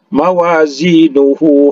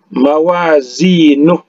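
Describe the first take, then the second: First: The word ends with a lengthened hu vowel. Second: The word ends on a bare h sound. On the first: The reading continues into the next word. "Kalau dia wasol berbunyi ha, ya, dua berbunyi hu" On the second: The reading stops at this word. "kalau dia wakaf di sini maka mawazinuh"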